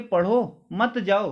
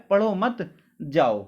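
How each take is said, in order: First: पढ़ो apart, then मत जाओ as a unit; brief break after पढ़ो; pause after पढ़ो. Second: पढ़ो मत run together, जाओ apart; pause after मत. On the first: Teacher recalling what he actually said, pause after पढ़ो. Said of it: "मैंने आपसे बोला था ये". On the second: Teacher quoting what students understood from sir, pause after मत. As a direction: break after मत, before जाओ. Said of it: "पर आपने उसका अर्थ क्या निकाल लिया". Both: Shown as a demonstration.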